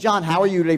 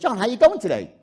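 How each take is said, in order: First: It sounds flat and scripted, like a telemarketer. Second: It sounds warm and genuinely interested.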